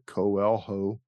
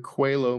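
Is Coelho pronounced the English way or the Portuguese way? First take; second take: English; Portuguese. First: It is pronounced in an English way. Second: It is pronounced in the Portuguese way.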